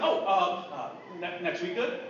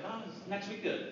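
First: Stammering, caught off guard; retold hesitant scrambling for words; flustered cover-up. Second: Soft, understated question; hiding shock. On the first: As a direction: stumble into a tentative question. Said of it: "I was actually shocked". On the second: Retold or imitated. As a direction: play it down casually, softly. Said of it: "I tried not to let it show".

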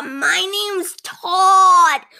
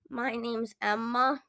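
First: High, loud, slow sugary Todd; overly cheerful cashier. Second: Subdued customer. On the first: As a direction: stretch "Todd" out sweetly and loudly. Cashier introduces himself. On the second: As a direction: answer quietly and a bit down. Tired customer answers cashier. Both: Acted.

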